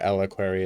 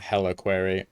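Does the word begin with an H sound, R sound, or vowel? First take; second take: vowel; H sound. First: The word begins directly with a vowel. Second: The word begins with an H sound. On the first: "or eliquary, as I've also said" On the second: "not heliquary"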